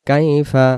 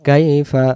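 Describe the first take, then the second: No difference in how they are said.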